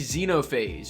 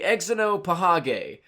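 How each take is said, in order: First: The word begins with a 'z' sound. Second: The word begins with an 'eks' sound.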